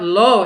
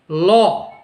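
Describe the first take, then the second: First: The vowel is a rounded 'oh' sound. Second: The vowel is an open 'aw' sound. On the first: The speaker calls it wrong. "it's not low" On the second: The speaker calls it right. "it's law"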